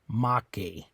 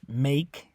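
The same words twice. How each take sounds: First: The final e is pronounced as a vowel. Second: The final e is silent. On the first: "the way you would pronounce make, M A K E, in Spanish would be make" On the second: "in English, make, the E on the end is silent"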